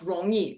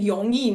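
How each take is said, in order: First: The word begins with an r sound. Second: The word begins with a y sound. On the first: This is the standard way to say it. "not rongyi for easy" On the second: This is how people from the northeast say it. "They sometimes r sound pronounced as y. So they were saying yongyi"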